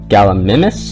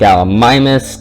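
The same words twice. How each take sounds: First: The 'i' vowel is said like 'ih'. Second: The 'i' vowel is said like 'eye'. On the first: The speaker calls it right. "So it'd be an I sound, so thus being Gallimimus" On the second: The speaker calls it wrong. "It's not Gallimimus, because there is no way to make the I say I"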